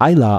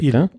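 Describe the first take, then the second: First: It begins with an 'ai' diphthong. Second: It begins with a long 'ee' vowel. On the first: The speaker calls it wrong. "was die meisten Leute Eila aussprechen" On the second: The speaker calls it right. "ein I-Laut vorne. Und hinten ist es ein Ö-Laut"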